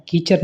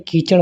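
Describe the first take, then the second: First: कीचड़ as "keechar", plain r; mispronunciation. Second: Said in the usual way. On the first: Shown as a demonstration. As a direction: finish कीचड़ on a simple r. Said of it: "कीचड़ नहीं". (कीचड़ में 'ड़' की जगह 'र') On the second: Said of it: "कीचड़ होता है".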